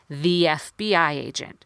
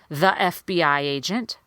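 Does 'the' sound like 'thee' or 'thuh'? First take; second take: thee; thuh. First: 'The' is said with a long 'thee' sound. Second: 'The' is said with a short 'thuh' sound. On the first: The speaker calls it right. "I would say" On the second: The speaker calls it wrong. "I wouldn't say"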